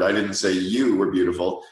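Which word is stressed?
you. The stress falls on "you". "or the fourth word"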